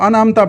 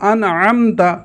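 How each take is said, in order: First: The middle consonant is a plain glottal stop. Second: The middle consonant is a deep throaty ain. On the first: The speaker calls it wrong. "वो आइन की जगह हमज़ा पढ़ देते हैं" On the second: The speaker calls it right. "दुरुस्त है"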